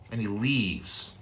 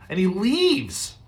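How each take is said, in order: First: Slow, dropped quiet repeat; soft and low. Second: Drawn out, pitched high; high and slow. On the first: Preacher echoing the exit, soft and slow. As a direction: let it fall away softly. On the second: Preacher lingering on the exit, high and slow. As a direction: stretch it out, voice lifted. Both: Shown as a demonstration. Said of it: "repeated for effect".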